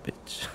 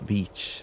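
First: The vowel is short, sounding like 'bitch'. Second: The vowel is long, as in 'beach'. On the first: The speaker calls it wrong. "not beach" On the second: The speaker calls it right. "It's a beach"

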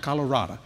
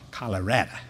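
First: The middle syllable sounds like 'rah'. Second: The middle syllable sounds like 'red'. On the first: The speaker calls it wrong. "Not Colorado" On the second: The speaker calls it right. "Learned that from the Coloradians. Color red"

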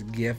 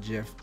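First: It starts with a hard G sound. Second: It starts with a soft J sound. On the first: "I know it's graphic something something, right? So I'm pretty sure it's GIF" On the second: "I used to pronounce it GIF"

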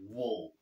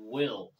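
First: The vowel is reduced to a weak schwa. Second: The vowel is a full, clear i sound. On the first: "これが手話になってて、will みたいな" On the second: "will じゃなくて"

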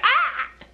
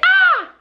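First: It is a squawky, bird-like scream. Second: It is a normal human scream.

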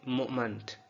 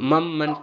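First: The first vowel is slightly rounded, like u. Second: The first vowel is a plain, unrounded schwa. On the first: The speaker calls it right. "श्वा के बाद यू जैसी अलामत आ जाना हमें थोड़ा सा पेश की हरकत देता है, तो हम बोलेंगे मोमेंट" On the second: The speaker calls it wrong. "इसको बिल्कुल मम्मंट नहीं बोल सकते"

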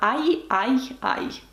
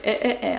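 First: The vowel sounds like 'eye' ending in a y-glide. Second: The vowel sounds like a plain 'eh'. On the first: The speaker calls it right. "А нам треба ай-ай-ай" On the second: The speaker calls it wrong. "Якщо не поставити дві крапки, то ми це прочитали як е-е-е"

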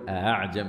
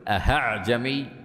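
First: The opening hamza is softened, with no h sound. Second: The hamza becomes a full h sound. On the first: The speaker calls it right. "وإنما هي همزة مسهلة" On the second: The speaker calls it wrong. "فتصبح هاء كاملة، وهذا خطأ"

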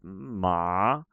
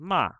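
First: The pitch dips down and then rises. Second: The pitch stays level throughout the syllable. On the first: "Like a loop" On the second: "or a flat tone"

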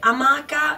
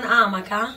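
First: The stress is on the first syllable. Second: The stress is on the second syllable. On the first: The speaker calls it right. "si dice amaca" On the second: The speaker calls it wrong. "e non amaca"

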